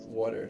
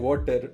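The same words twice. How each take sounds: First: It is said in an American accent. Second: It is said in an Indian accent.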